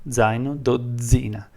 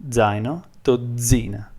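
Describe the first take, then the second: The two takes are said the same way.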